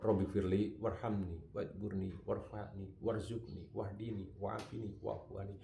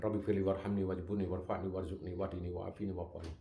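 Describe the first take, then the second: First: It is recited calmly and slowly. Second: It is recited in a hurried, fast way.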